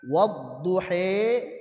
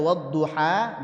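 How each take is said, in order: First: The final vowel leans fully toward e. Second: The final vowel is a plain open a. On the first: "dengan imalah kubra" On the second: "dengan fathah pada ha"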